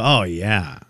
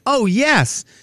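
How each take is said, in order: First: The reply sounds flat and uninterested. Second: The reply sounds lively and eager. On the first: He does not care about the story. The speaker calls it wrong. "Like, in the worst way" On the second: He is keen to hear the story. The speaker calls it right. "I wanted to say, like"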